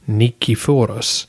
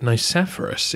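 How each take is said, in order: First: The name is said with a Greek pronunciation. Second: The name is said with an English pronunciation. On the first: "in Greek would be" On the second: "the more familiar anglicisation"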